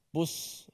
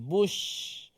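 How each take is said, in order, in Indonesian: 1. Konsonannya adalah bunyi s desis yang biasa. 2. Konsonannya adalah bunyi sh yang melebar dan mendesis. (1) "ada yang menyebut busra. ... itu tak, tak sampai lagi shin" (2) "dia mesti bush"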